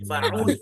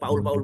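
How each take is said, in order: First: The word begins with an f sound. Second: The word begins with a p sound. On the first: The speaker calls it right. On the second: The speaker calls it wrong.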